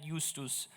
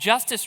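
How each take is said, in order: First: The second syllable sounds like 'tus'. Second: The second syllable sounds like 'tiss'. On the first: The speaker calls it wrong. "not, not Justus" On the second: The speaker calls it right. "That's the way we say it in America"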